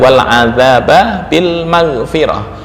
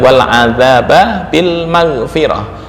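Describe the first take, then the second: First: A vowel separates the two b sounds. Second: A vowel separates the two b sounds.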